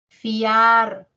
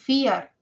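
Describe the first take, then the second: First: The A vowel sounds stronger than the I. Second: The I vowel sounds stronger than the A. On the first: The speaker calls it right. "suena más la A" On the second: The speaker calls it wrong. "No es fiar"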